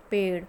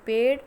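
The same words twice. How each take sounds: First: पेड़ with the flapped ड़, falling; पेड़ said correctly, closing the pair; correct pronunciation. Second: पेड़ said as "पेड", hard ड, rising and louder; पेड़ with a plain ड like a wrong-answer example; wrong pronunciation. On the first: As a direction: settle पेड़ with a proper ड़ flap, falling tone. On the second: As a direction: give पेड़ the wrong hard ड sound, lifting the end. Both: Shown as a demonstration. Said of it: "सड़ना अशुद्ध है और सड़ना शुद्ध है".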